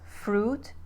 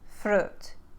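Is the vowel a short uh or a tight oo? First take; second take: tight oo; short uh. First: The vowel is a tight oo sound. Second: The vowel is a short uh sound. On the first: "a word that does have a tight oo sound, like fruit" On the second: "will become uh, like should"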